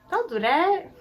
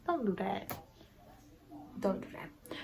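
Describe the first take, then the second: First: High-pitched playful telling-off; playful scolding. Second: Quiet repeat fading into a whisper; hushed scolding. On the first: Vlogger telling off unsubscribed viewers, playfully scolding, high. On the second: Vlogger warning unsubscribed viewers, hushed and fading to whisper. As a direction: drop the telling-off down to a whisper. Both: Real, not acted.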